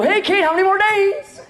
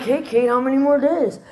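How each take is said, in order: First: Eager question. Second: Said in the usual way. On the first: Retold or imitated. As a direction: call out cheerfully to Kate. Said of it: "and they go". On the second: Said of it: "were kinda like".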